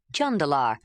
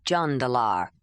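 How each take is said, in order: First: "Jandalar" said once at an ordinary pace; a first, unhurried take of "Jandalar"; Jondalar, normal pace. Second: "Jandalar" said a bit more slowly and lower; lower, slower repeat of his name. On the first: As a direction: lower man's voice saying his name. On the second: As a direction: take your time on "Jandalar". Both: Acted. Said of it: "then slower".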